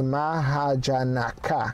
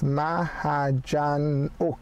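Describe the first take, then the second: First: The name ends with a full 'naka' sound. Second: The name ends with a short 'nok' sound. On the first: The speaker calls it wrong. "which would be the English way" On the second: The speaker calls it right. "no, it's pronounced as MAHAJANOK"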